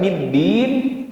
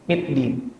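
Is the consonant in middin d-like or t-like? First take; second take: d-like; t-like. First: The consonant is a clear d sound. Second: The consonant sounds mixed with a t. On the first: The speaker calls it right. "Harusnya middin" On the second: The speaker calls it wrong. "terbacanya middin, Kayak nyampur sama huruf ta"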